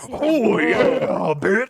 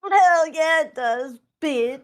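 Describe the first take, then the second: First: High, gravel-free wrestler promo growl "Oh, yeah"; Macho Man Randy Savage. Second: Loud growly "hell yeah, bitch"; wolf voice. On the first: Retold or imitated. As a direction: ham up the wrestler catchphrase. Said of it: "Now it's Macho Man Randy Savage, dire wolf". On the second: Acted. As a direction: bark it out as the dire wolf. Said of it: "is that your wolf's voice?".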